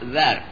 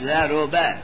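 First: The r sound carries no vowel. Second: The r sound is followed by u. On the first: "به سکون را" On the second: "به زمش"

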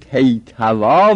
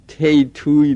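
First: The word ends with an 'ah' sound. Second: The word ends with an 'ee' sound. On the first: The speaker calls it right. "تیتوا بگو" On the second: The speaker calls it wrong. "تیتوی نگو"

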